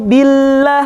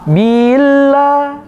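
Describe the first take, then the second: First: The b moves straight on to the l. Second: The vowel after the b is drawn out. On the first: The speaker calls it right. "langsung ke lam" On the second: The speaker calls it wrong. "bila itu nambah ya setelah ba. Gak boleh"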